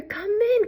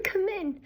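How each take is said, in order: First: High granny voice leaning on "in"; "Come in" with the stress landing on "in"; Grandma welcoming. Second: High granny voice hitting "come", much softer; "come in" with the weight on "come", dropping away; softer repeat. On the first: Grandma invites her visitor in, stressing "in". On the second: Grandma repeats her welcome softly, stressing "come". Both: A narrator's reading. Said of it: "said Grandma".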